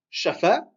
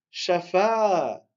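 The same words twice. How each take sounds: First: "shafa" with no lengthening on either "a"; both syllables short. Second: "shafa" with short "sha" and long held "fa"; long final syllable. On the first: Teacher showing the mistake to avoid, "shafa" with two short vowels. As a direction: say "shafa" quickly, short "sha", short "fa". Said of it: "On dit pas shafa". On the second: Teacher giving the correct reading, "shafa" with long drawn-out "fa". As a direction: stretch out the last "a" of "shafa". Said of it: "On dit shafa". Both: Shown as a demonstration.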